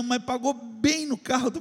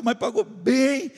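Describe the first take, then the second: First: Said in the usual way. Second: Slow, drawn-out "bem" with a rising end; stress on bem. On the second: Shown as a demonstration. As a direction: lean into "pagou bem", slowly. Repeating how well he was paid.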